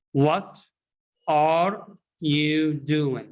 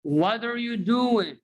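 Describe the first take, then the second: First: "What", pause, then "are you doing" slowly word by word; "are" said in full, apart from "What"; wrong unlinked version. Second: "What are you doing" as "wadder you doin'", pitched high; high sing-out "wadder you doin'"; linked model phrase. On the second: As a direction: model "What are" as one word for repeating. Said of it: "repeat after me". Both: Shown as a demonstration.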